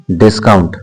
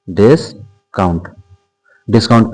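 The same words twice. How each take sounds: First: Said in the usual way. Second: "discount" slowly split into "डिस" and "count"; slow, two-part "discount"; drawn-out dictation. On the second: Shown as a demonstration. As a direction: pause inside "discount", as if writing it. Teacher spells out topic slowly.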